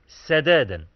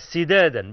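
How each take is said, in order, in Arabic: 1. المقطع الأول فيه الحركة 'a'. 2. المقطع الأول فيه الحركة 'i'. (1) "بفتح السين" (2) "بكسر السين"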